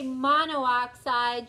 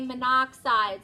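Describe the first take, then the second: First: An extra o sound comes before oxide. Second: No extra o sound comes before oxide. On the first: The speaker calls it wrong. "You don't say monoxide" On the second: The speaker calls it right. "you just say monoxide"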